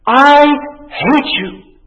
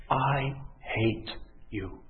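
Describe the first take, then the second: First: Put-on loud, high yell of a furious child; acted tantrum shout; screamed. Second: Slow, hushed, word by word; quiet, grave confession. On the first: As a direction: scream it out, first word held and punched. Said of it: "and he screamed". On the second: Acted. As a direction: let each word drop softly and heavily. Same words now said to God.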